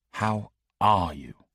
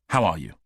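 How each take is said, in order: First: Slow, weighty How are you with the stress on are; intensity dialed up. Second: Said in the usual way. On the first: A narrator's reading. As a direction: lean into "are", stretching the question out with concern. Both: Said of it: "he said with the intensity dialed up".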